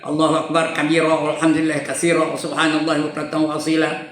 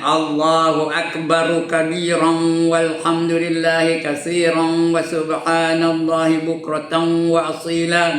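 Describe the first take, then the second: First: The word endings are clipped off without linking. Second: The word endings are fully pronounced and linked. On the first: The speaker calls it wrong. "Yang salah apa?" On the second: The speaker calls it right. "Baru betul"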